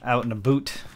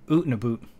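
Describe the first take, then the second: First: 'Out' is said with a standard vowel. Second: 'Out' is said as 'oot', Canadian-style.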